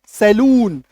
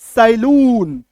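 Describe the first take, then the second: First: It is said with the standard English pronunciation. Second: It is said with the common Indian pronunciation. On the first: The speaker calls it right. "सही उच्चारण ये है" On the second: The speaker calls it wrong. "हम लोग अपने देश में क्या बोलते हैं? ... हालांकि ये सही उच्चारण नहीं है"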